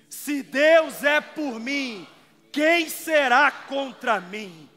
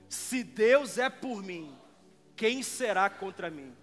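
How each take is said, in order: First: It is said loudly and with strong force. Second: It is said with normal, moderate force.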